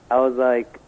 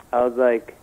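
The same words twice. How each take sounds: The two takes are said the same way.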